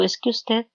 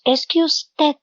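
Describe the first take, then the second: First: Said in the usual way. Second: Accusing tone. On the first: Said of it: "cuando yo digo". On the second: Retold or imitated. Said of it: "Generalmente cuando estamos en conflicto decimos".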